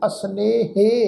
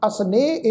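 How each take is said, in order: First: The word ends with an added 'he' syllable. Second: The word ends plainly, with no added syllable. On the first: The speaker calls it wrong. "इनू असनेहे हे नाल नहीं" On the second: The speaker calls it right. "असनेह इनू पढ़ना वा"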